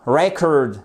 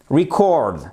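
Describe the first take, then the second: First: "Record" said REC-ord, open e; stress on first syllable. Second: "record" said ree-CORD; stress on second syllable. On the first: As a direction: lean on the start of "Record". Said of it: "l'accentuation sur la première syllabe". (« Record » prononcé REC-ord, accent sur la première syllabe) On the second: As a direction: lean on the end of "record". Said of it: "le mot record que vous avez ici". (« record » prononcé ri-CORD, accent sur la deuxième syllabe) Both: Shown as a demonstration.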